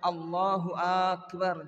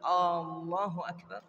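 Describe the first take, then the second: First: The opening vowel of Akbar is drawn out. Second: The opening vowel of Allahu is drawn out. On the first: "Atau akbar" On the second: "memanjangkan lafaz atau huruf hamzah di awal"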